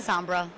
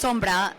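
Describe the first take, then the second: First: The name is said with English pronunciation. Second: The name is said with Spanish pronunciation. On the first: "but you can say sombra. I'll forgive you" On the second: "in Spanish it's sombra"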